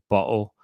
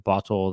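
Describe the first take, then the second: First: The t in the middle is dropped. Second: The t in the middle is fully pronounced. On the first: "they won't pronounce certain letters" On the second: "instead of saying bottle"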